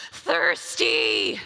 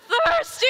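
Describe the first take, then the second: First: Deep, drawn-out croak like crawling through a desert; dying-of-thirst croak. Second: Much higher, loud strained cry; desperate thirsty cry.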